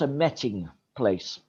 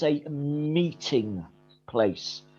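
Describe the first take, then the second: First: The first vowel is a short e sound. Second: The first vowel is a long ee sound. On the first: The speaker calls it wrong. "not a metting place" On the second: The speaker calls it right. "There's a double vowel, E-E. So it's the E sound"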